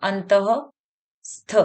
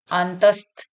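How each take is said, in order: First: अंतस्थ stretched very slowly syllable by syllable; slow sounding out. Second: Said in the usual way. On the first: Shown as a demonstration. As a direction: draw out अंतस्थ so children catch each sound. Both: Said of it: "दूसरा है अंतस्थ".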